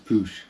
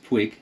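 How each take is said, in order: First: The word ends with an sh sound. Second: The word ends with a hard g sound. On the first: "and one says Push" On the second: "One says Puig"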